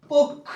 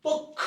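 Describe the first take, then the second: First: পক্ষ said clearly as pok-khô; পক্ষ স্পষ্ট উচ্চারণ; modeling pronunciation. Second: পক্ষ said softly with strong kh; whisper-soft second pass at পক্ষ; নরম করে পক্ষ; breathy repeat. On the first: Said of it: "পক্ষ যখন লিখতে যাচ্ছ". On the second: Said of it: "এই যে উচ্চারণ হয়ে গেছে". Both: Shown as a demonstration.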